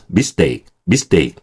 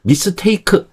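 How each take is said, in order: First: "mistake" as mis-DAY with swallowed k; English mistake. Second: "mistake" as mi-seu-te-i-keu, every syllable full; Korean-style mistake. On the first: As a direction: say "mistake" in one go, tense t. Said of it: "한 번에 발음해 주시는 거예요". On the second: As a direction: spell out "mistake" with aspirated t and k. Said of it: "그렇게 하시는 게 아니라". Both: Shown as a demonstration.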